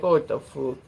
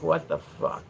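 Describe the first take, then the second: First: Mock Irish disbelief; playful Irish-accented reaction; imitated Irish accent. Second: Quiet, low mock disbelief; hushed, unimpressed reaction; baffled Irish viewers. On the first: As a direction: exclaim it as a baffled Irish viewer. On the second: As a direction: mutter it like an appalled Irish viewer. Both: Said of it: "people that were from Ireland come and watch".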